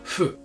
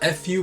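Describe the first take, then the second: First: It starts with a sound between f and h. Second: It starts with a clear English f sound. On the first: The speaker calls it right. "kind of in the middle" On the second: The speaker calls it wrong. "It's it's not fu"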